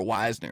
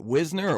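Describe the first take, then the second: First: First syllable of Wisner sounds like "wise"; Wisner with long i. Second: First syllable of Wisner rhymes with "fizz"; Wisner with short i. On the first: Podcaster offering the other guess, Wisner said WISE-ner. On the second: Podcaster unsure of a player's name, Wisner said WIZ-ner. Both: Shown as a demonstration. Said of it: "was it Wisner or Wisner? I'm not sure".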